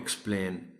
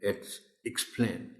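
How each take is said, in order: First: The word does not begin with an 'ik' sound. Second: The word begins with an 'ik' sound. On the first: The speaker calls it wrong. "It's not explain" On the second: The speaker calls it right. "Ik sound से शुरू होगा ये word"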